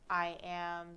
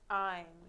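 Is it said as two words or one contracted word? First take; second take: two words; contracted. First: Two separate words are said in full. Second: The words are joined into one short syllable. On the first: "the form long" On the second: "the form short"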